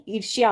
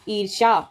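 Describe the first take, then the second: First: ईर्ष्या said as "eer-shyaa"; correct, y sounded. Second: ईर्ष्या said as "eer-shaa"; wrong, y dropped. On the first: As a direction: put a clear y after sh in ईर्ष्या. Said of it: "ईर्ष्या होता है". (ईर्ष्या में य साफ़ बोलें) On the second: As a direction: leave out the y in ईर्ष्या. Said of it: "तो ईर्ष्या नहीं". (ईर्ष्या को "ईर्षा" बोलें) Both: Shown as a demonstration.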